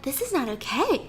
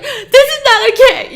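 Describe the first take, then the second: First: Much softer, held back and cold; eerie quiet protest. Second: Higher and louder, said openly; loud blunt protest. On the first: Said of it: "But if you're like". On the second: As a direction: say it out loud, upfront. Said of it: "I'd rather you be like". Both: Shown as a demonstration.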